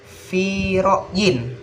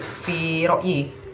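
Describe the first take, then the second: First: The last word ends with an n sound. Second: The last word ends without an n sound. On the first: The speaker calls it right. "maka dibaca fi ro'yin" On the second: The speaker calls it wrong. "bukan fi fi ro'yi"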